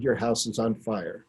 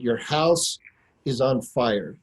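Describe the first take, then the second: First: Quiet, calm statement of fact; hushed and steady, letting it land; calmly. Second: Said in the usual way. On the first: Retold or imitated. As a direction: tell him evenly, no panic. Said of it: "calmly, I said". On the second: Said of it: "And I said".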